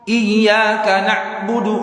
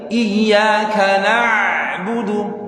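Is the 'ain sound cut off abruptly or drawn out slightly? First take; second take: abrupt; drawn. First: The 'ain sound is cut off hard and abruptly. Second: The 'ain sound is slightly drawn out and softened. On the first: The speaker calls it wrong. "Jadi enggak terlalu na'" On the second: The speaker calls it right. "Kayak ditarik"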